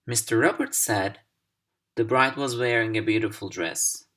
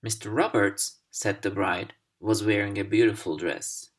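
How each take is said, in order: First: Mister Roberts said, pause, the bride was wearing a beautiful dress; teacher demo of a pause after said. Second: Mister Roberts, pause, said the bride, pause, was wearing a beautiful dress; teacher demo of the aside reading; pauses around said the bride. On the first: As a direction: break after said. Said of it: "Here's the second pair". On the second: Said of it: "But if you say it like". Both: Shown as a demonstration.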